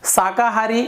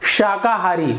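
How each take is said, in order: First: The word begins with an s sound. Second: The word begins with an sh sound. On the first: The speaker calls it wrong. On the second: The speaker calls it right.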